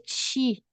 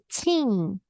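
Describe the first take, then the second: First: The word ends on a bare vowel without n. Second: The word ends with a nasal n sound. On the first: The speaker calls it wrong. "eu não vou fazer ti" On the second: The speaker calls it right. "vou fazer teen; E o som de N aqui no nariz"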